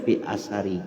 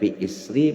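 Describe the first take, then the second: First: The word starts with a, with a after s. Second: The word starts with i, no vowel after s. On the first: "bi fathihima dengan menfathah kedua huruf tersebut" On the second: "dengan mengkasrah huruf hamzahnya, wa iskanis sa dan mensukun huruf sa-nya"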